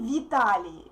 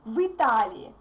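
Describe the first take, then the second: First: The vowel after v is a clear ee. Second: The vowel after v sounds like y. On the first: The speaker calls it wrong. "we don't say Vitali" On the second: The speaker calls it right. "we say Vitali ... we get "y" sound again"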